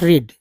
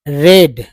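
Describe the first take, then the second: First: The vowel is long, like in reed. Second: The vowel is short, like in red. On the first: It is the present tense. The speaker calls it wrong. "Not रीड" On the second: It is the past participle. The speaker calls it right. "Not रीड"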